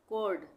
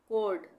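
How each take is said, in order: The two takes are said the same way.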